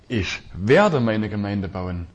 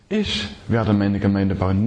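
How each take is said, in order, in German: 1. Die Betonung liegt auf dem Wort „werde“. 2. Die Betonung liegt auf dem Wort „Ich“. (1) "Und dann ist diese gewaltige Verheißung dabei" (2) "Niemand sonst"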